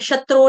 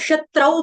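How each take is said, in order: First: The word ends with a plain 'o' vowel. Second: The word ends with an 'au' diphthong. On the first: The speaker calls it wrong. "शत्रो नहीं पढ़ेगा कोई" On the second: The speaker calls it right. "इसको शत्रौ पढ़ेंगे"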